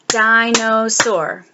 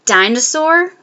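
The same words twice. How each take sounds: First: Dinosaur slow as di-no-saur; clapped syllables. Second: Said in the usual way. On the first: Shown as a demonstration. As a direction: clap out di-no-saur slowly. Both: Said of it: "clap the syllables".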